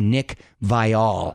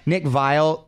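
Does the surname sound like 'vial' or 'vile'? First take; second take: vial; vile. First: The surname sounds like the word vial. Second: The surname sounds like the word vile. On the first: This is the pronunciation he now insists on. The speaker calls it right. "It's actually Nick Vial" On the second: This is the old pronunciation everyone used. The speaker calls it wrong. "they've been pronouncing it wrong"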